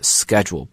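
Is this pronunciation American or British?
American. It is said with an American accent. "in American accent it's schedule"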